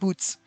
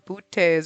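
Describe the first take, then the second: First: It sounds like the plain English word boots. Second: It has a fancier, accented pronunciation. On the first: The speaker calls it wrong. "It's not Boots" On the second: The speaker calls it right. "It's got a fancy pronunciation"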